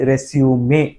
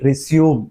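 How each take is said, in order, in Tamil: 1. வார்த்தை இறுதியில் 'may' ஒலியோடு முடிகிறது. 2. வார்த்தை இறுதியில் 'may' ஒலி இல்லாமல் முடிகிறது. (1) "மேனா எம்ஏஒய்" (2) "த மேட்ச் வில் ரெஸ்யூம்"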